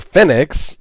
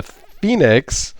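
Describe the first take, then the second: First: "Fenix" pronounced FEN-ix, first vowel as in pen; short-e pronunciation. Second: "Phoenix" pronounced like the bird, FEE-nix; long-e pronunciation. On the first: Unsure reviewer offers the alternative, "Fenix" as FEN-ix. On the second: Unsure reviewer offers a brand name, "Phoenix" as FEE-nix. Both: Shown as a demonstration. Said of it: "how you pronounce that".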